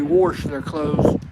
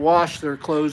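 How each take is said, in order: First: It is said in an Oklahoma accent. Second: It is said in a standard accent.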